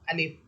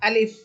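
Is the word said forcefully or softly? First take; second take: softly; forcefully. First: The word is said softly, without force. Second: The word is said firmly, with force. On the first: The speaker calls it wrong. "আপনি নরম করে বললে হবে না" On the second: The speaker calls it right. "একটু জোর দিয়ে শক্ত করে বলবেন"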